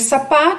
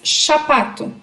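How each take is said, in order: First: The word begins with an s sound. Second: The word begins with a sh sound. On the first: The speaker calls it right. "ao invés de sapato" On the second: The speaker calls it wrong. "Ela troca o S pelo som do X ou do C H"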